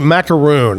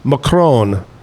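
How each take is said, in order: First: It is said as macaroon. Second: It is said as macaron. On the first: This is the usual everyday pronunciation. The speaker calls it wrong. "we say macaroon" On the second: This is the proper French pronunciation. The speaker calls it right. "That's the proper way to pronounce macaroon"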